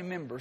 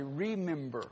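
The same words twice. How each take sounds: First: "member" with the first syllable of remember dropped; wife's pronunciation correction. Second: "remember" in full, with its "re" sounded; wife's pronunciation correction. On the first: Preacher quoting his wife's correction, "member" clipped of its "re". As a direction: say "member" country-style, without the "re". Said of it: "My wife tells me never say that". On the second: Preacher quoting his wife's correction, "remember" said in full. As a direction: say all three syllables of "remember", carefully and quietly. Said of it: "She said, "Don't say member".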